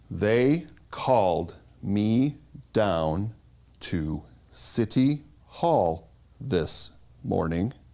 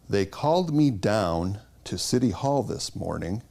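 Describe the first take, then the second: First: Each word is separated in a mechanical, robotic way. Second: Words stay separated but flow in a natural way.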